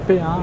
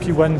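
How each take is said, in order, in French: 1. Le numéro est prononcé à la française. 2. Le numéro est prononcé à l'anglaise.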